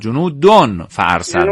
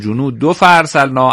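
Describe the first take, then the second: First: The first word ends in an n sound. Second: The first word ends in a bare vowel. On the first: The speaker calls it right. "احسن" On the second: The speaker calls it wrong. "به جای تنوین اون ذمه خوانده شه"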